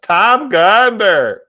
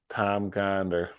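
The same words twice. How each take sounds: First: Loud, high, slow name call; light up at a friend's name; delighted recognition. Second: Softer, slower repeat of "Tom Gonder"; quiet fond repeat. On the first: Streamer spotting his old buddy in chat, loud and delighted. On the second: Streamer quietly repeating his friend's name, fond and soft. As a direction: savor "Tom Gonder" to yourself. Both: Real, not acted.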